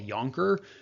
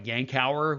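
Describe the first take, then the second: First: The name is said with two syllables. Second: The name is said with three syllables. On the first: This is the name as the speaker was taught it. The speaker calls it wrong. "at least I was taught to call it a Yonker" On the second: This is how other places in the world say it. The speaker calls it right. "which is probably the correct pronunciation"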